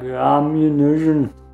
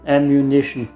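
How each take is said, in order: First: The word is said in a heavy Austrian-German accent. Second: The word is said in a fairly plain accent. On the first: The speaker calls it wrong. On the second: The speaker calls it right.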